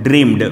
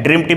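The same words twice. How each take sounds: First: ड्रीम्ड ending in a voiced d; dreamed, voiced d. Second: ड्रीम्ड ending in an unvoiced t, as dreamt; dreamt, final t. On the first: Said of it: "आप sound निकालिएगा ड". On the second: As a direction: say ड्रीम्ड with a crisp t. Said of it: "ड्रीम्ड भी होता है". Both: Shown as a demonstration.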